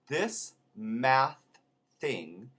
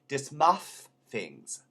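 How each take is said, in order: First: The th sounds are pronounced as plain th. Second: The th sounds become d and f sounds.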